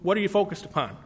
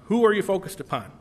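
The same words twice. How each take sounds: First: Said in the usual way. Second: "Who" hit harder than the rest, quick question; stress on WHO. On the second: Acted. Preacher turns the question on the congregation, stress on "Who". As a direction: punch the word "Who" to correct the focus.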